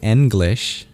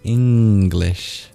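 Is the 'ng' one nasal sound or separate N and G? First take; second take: separate sounds; one nasal. First: The 'ng' is split into separate n and g. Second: The 'ng' is one back nasal sound. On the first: The speaker calls it wrong. "You don't say English" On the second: The speaker calls it right. "you say English"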